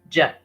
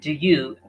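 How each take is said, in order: First: The words merge into one short j sound. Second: Both words are said fully and separately. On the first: "as j" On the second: "We read do you as j"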